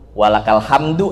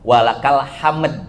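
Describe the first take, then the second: First: The final word ends with a short vowel. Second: The final word stops on a light d sound. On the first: This is the full original form. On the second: This is the form used when pausing. "kita wakofkan walakal hamd, ada dalnya dikit"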